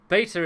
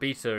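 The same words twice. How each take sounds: First: It is said the American way. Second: It is said the British way.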